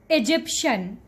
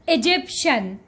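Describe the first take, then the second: First: The word ends in a shen sound. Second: The word ends in a shen sound.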